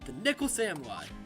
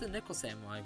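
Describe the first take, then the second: First: The name is said forcefully with lots of energy. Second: The name is said plainly with little energy. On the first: The speaker calls it right. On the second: The speaker calls it wrong.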